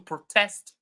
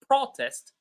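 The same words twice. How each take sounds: First: The stress is on the second syllable. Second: The stress is on the first syllable. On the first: It is used as a verb. "When they are verbs, we stress the second syllable" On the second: It is used as a noun. "when these words are nouns, we stress the first syllable"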